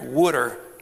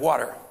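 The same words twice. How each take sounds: First: It is said in a Philadelphia accent. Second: It is said in a standard accent. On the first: "Philadelphians drink water" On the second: "instead of water"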